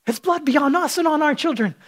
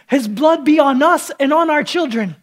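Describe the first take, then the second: First: Said in the usual way. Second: Louder, higher mock crowd yell; crowd scream. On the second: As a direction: shout it like the mob. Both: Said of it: "And the crowd scream".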